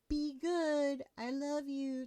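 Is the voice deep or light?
light. It is said in a lighter voice.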